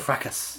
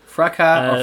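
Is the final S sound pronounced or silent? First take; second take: pronounced; silent. First: The word ends with an S sound. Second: The word ends without an S sound. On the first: "Do you pronounce the S on that?" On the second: "Is the S silent?"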